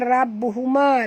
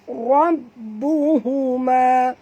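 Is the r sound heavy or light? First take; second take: light; heavy. First: The r sound is light and thin. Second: The r sound is heavy and thick. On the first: The speaker calls it wrong. "Jangan baca rabbuhuma" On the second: The speaker calls it right. "Huruf ra kena baca tebal ya"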